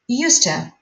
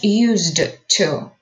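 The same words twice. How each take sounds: First: The words link, with a t sound before 'to'. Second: The words stay apart, with a d sound before 'to'. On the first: The speaker calls it right. "we say used to, D becomes T" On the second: The speaker calls it wrong. "not used to"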